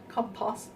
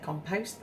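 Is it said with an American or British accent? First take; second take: British; American. First: It is said with a British accent. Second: It is said with an American accent.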